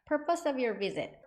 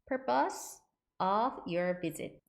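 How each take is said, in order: First: It is said fast, with the words linked. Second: It is said slowly, each word clearly separated.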